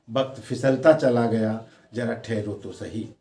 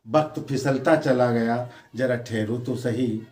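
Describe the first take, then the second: No difference in how they are said.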